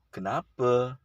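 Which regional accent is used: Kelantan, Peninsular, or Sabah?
Peninsular. It is said softly and gently, Peninsular style. "saudara-saudara kita di Semenanjung menyebutnya dengan lemah lembut"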